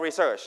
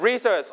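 First: Re-SEARCH, weight on the last syllable; stress on second syllable. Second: RE-search, weight on the opening syllable; stress on first syllable. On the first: (เน้นพยางค์ที่สองของ research) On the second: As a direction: stress the RE of Research. (เน้นพยางค์แรกของ Research) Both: Shown as a demonstration. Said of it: "stress on the first or second syllable".

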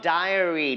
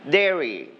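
First: "diary" slowly, opening like "die"; mistaken word modelled. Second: "diary" said as DAIR-ee, like dairy; two syllables, "diary" opening like "dare"; correct word modelled. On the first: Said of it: "Diary is a notebook that you write". (อ่าน "diary" ช้า ๆ ว่า ได-เออะ-รี) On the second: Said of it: "But this one, everybody say". (อ่าน "diary" เป็น แด-รี) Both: Shown as a demonstration.

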